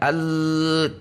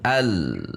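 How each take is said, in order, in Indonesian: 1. Tekanannya ditahan datar sepanjang bunyi. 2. Bunyinya ditekan lalu menurun. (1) "tidak al, perhatikan tekanan suara Anda tidak konstan" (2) "al kemudian turun, al, turun"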